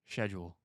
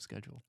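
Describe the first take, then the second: First: The word starts with sh, without a k. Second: The word starts with sk, with a k. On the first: This is how a character said it. The speaker calls it wrong. "Max say schedule instead of schedule ... Where did the C go in that word?" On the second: This is the expected way to say it. The speaker calls it right. "instead of schedule"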